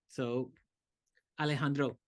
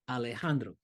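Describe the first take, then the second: First: The stress falls on a different syllable. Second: The stress falls on the 'jan' syllable. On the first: The speaker calls it wrong. "If I put it off the beat, it's not gonna feel right" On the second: The speaker calls it right. "the accent is on ha"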